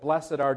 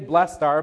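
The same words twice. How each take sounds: First: Blessed is said as two syllables. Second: Blessed is said as one syllable. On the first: "just has a better cadence ... That two-syllable thing works pretty well" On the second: "You could say blessed are"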